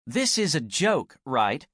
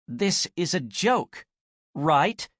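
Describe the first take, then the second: First: Firm statement. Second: Higher, slower, lifting on right; rising into a real question. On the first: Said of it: "a firm statement than a question". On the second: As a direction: let the firm statement turn into a real question. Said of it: "Her voice rose with the last word". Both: Acted.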